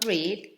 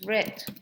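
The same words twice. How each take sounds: First: It is said with the present-tense pronunciation. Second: It is said with the past-tense pronunciation. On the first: It is the present tense. "The past of read" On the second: It is the past tense. "is read. The pronunciation is different"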